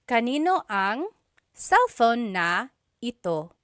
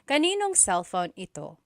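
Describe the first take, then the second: First: Every word is said fully and carefully. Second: Words run together quickly with sounds dropped. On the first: This is the technically correct form. "technically there is a na" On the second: This is how people say it in everyday conversation. "Whenever someone is speaking quickly, the na is dropped"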